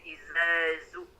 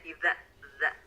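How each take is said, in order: First: The first word has a buzzing z sound. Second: The first word has a soft dh sound. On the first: The speaker calls it wrong. "huruf zal ada yang tertukar menjadi huruf zai" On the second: The speaker calls it right.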